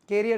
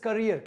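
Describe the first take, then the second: First: The first syllable sounds like 'care'. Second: The first syllable sounds like 'cur'. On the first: The speaker calls it wrong. "कैरियर नहीं है" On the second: The speaker calls it right. "This is करियर"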